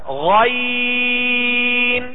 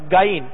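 First: It starts with a throaty gh sound. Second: It starts with a plain hard g sound. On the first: The speaker calls it right. "صحیح طریقہ جو ہے وہ یہ ہے کہ غائن، اس کو گائن نہ پڑھا جائے" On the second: The speaker calls it wrong. "غائن کو گائن پڑھا جاتا ہے"

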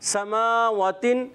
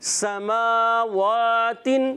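First: The first long vowel is cut short. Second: Both long vowels are held full length. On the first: The speaker calls it wrong. "پہلا کھڑا زبر چھوڑ دیا وہ زبر بنا دیا" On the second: The speaker calls it right. "دونوں کو ایک ایک الف کھینچیں گے"

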